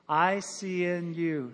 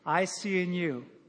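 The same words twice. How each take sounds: First: The letters are said a little faster. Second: The letters are said very fast. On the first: "Say it a little quicker" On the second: "Now real quick"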